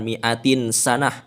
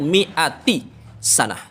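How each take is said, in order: First: The first word ends with an n sound. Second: The first word ends without an n sound. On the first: The speaker calls it wrong. "Itu itu salah" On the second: The speaker calls it right. "dibaca kasroh tanpa tanwin"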